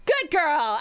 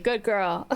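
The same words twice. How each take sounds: First: Bright, louder pat on the back; cheery praise. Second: Lower, gentler repeat of the praise. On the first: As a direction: cheer her on like a proud friend. Praising the chat for bragging. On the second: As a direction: say it again, low and fond. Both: Real, not acted.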